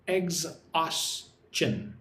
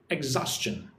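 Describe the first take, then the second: First: "exhaustion" very slowly in three separate syllables. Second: Said in the usual way. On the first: Shown as a demonstration. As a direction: break "exhaustion" into eggs-aus-tion. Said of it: "Three syllables".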